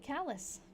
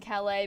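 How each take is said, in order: First: The name is said with an English pronunciation. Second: The name is said with a French pronunciation. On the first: The speaker calls it right. "it's actually Callus" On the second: The speaker calls it wrong. "I was saying Calais because that's what I assumed with like the French pronunciation"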